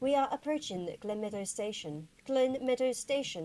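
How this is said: It is said in a train announcer voice.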